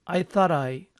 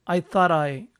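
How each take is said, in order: Both takes have the same delivery.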